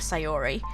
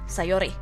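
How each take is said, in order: First: The name is pronounced the English way. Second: The name is pronounced the Japanese way. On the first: "in a way that an English speaking person would" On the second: "that accent slips in"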